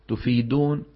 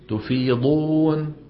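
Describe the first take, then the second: First: The middle consonant is a plain d sound. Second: The middle consonant is a heavy emphatic sound. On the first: The speaker calls it wrong. "إبدالها دالا" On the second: The speaker calls it right. "هي شو لازم تكون؟"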